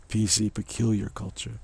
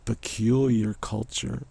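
First: Said in the usual way. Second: "peculiar" stretched slow and loud, "culture" trailing up; drawn-out peculiar. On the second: Shown as a demonstration. Punning on PC, stretching the word slowly. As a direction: spell out the PC joke by stretching "peculiar".

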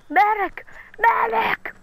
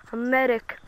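First: High calls of "Medic!"; man down shout. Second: Said in the usual way. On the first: Real, not acted. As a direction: yell "Medic!" for help. Calling for help in game.

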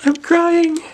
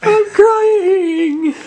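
First: High, loud wail of fake sobbing; hammed-up blubbering cry; mock crying. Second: Higher, louder hammed-up wail; mock crying, building. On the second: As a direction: push the fake sob to a howl.

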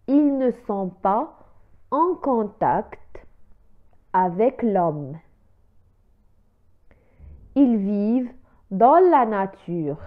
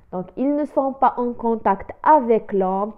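First: Slow, word by word, like dictation; slow model reading. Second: Said in the usual way. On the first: Shown as a demonstration. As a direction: spell it out slowly for the learners. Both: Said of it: "إذن لنعيد القراءة".

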